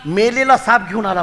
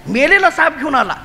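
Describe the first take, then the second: First: Said in the usual way. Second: "मेलेला साप" said higher with a laugh; laughing repeat. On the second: Shown as a demonstration. (हसत, उंच सुरात "मेलेला साप घेऊन आला")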